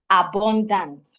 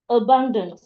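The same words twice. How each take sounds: First: The stress falls on a syllable other than the second. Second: The stress falls on the second syllable. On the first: The speaker calls it wrong. "not abundant" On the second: The speaker calls it right. "I'm stressing the second syllable"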